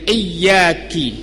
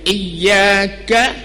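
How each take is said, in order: First: The final syllable ends with an 'i' vowel. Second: The final syllable ends with an 'a' vowel. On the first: The speaker calls it wrong. "dia baca dengan iyyaki" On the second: The speaker calls it right. "kasrah pada kaf"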